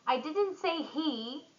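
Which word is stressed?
he. The stress falls on the word he. Someone else did it. "someone else"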